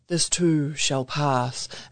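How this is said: It is said in a deep Gandalf voice.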